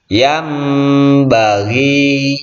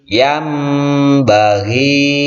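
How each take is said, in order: No difference in how they are said.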